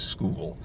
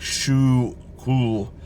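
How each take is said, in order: First: The name is said as a single syllable. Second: The name is said as two separate syllables. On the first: This is how everyone says it now. "everybody now says school" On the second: This is an older, unusual pronunciation. "a couple people to say it was like shoe cool"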